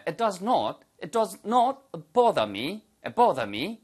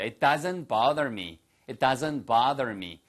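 First: Mock-British "bother" with rounded o and no r; British accent. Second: American "bother" with an open "ah" and pronounced r; American accent. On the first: Teacher shows students the other pronunciation, British accent. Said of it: "이렇게 하는 식으로 발음하시면 영국식 발음이 되겠죠". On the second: Teacher models the sentence for students, American accent. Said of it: "미국식 발음이고요". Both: Shown as a demonstration.

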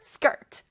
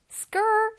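First: "skirt" finished with a crisp T; 완전한 단어 발음. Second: "skirt" without the final T, just "skrr"; higher, trendy "skrr" for "skirt". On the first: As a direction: close "skirt" on its final T. ("skirt" 끝에 T까지) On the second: ("skirt"를 끝소리 없이 "스껄") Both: Shown as a demonstration. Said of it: "그 발음이에요".

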